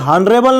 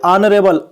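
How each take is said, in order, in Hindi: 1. शब्द की शुरुआत 'h' ध्वनि से होती है। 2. शब्द सीधे स्वर से शुरू होता है। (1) "अब ये हॉनरेबल नहीं पढ़ते हैं इसको" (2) "इसको पढ़ते हैं ऑनरेबल"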